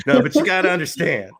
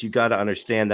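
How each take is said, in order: First: Punchier mock host catchphrase; imitating the host. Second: Said in the usual way. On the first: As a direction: lean into his pet phrase. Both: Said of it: "when he says".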